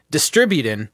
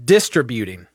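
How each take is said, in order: First: "distributing" with stress on DIS; mispronounced distributing. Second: "distributing" stressed on DIS, lower and falling; imitated mispronunciation. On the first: Retold or imitated. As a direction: imitate him saying "distributing" stressed on DIS, flat. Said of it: "heard you talking about". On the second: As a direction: mimic "distributing" with weight on DIS, low. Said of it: "you say".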